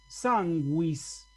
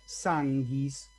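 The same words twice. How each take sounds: First: The u after g is pronounced. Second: The u after g is silent. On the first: The speaker calls it right. "como si la U tuviese una diéresis" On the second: The speaker calls it wrong. "ahí no voy a leer sanguis"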